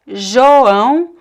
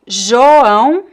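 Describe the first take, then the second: First: The first vowel sounds like 'o'. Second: The same.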